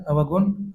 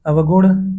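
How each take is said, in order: First: अवगुण ending in plain dental n; अवगुण with न instead of ण. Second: अवगुण ending in retroflex ṇ; careful अवगुण with final ण. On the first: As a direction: say अवगुण as avgun. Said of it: "अशुद्ध है". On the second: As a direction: curl the tongue back at the end of अवगुण. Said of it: "शुद्ध है". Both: Shown as a demonstration.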